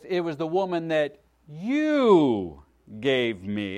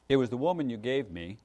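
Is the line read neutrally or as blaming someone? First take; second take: blaming; neutrally. First: It is read as blaming the listener. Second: It is read as a plain statement.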